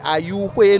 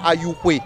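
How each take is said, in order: First: The name is said with a high tone. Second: The name is said with a plain tone. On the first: The speaker calls it right. "je le prononce dans la langue Aïzo" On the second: The speaker calls it wrong. "non pas"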